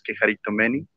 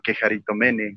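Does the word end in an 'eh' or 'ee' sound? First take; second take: ee; eh. First: The final vowel sounds like 'ee'. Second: The final vowel sounds like 'eh'. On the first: This is the real pronunciation. The speaker calls it right. "la pronunciación real es" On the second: This is how the opponent says it. The speaker calls it wrong. "como él lo quiera llamar"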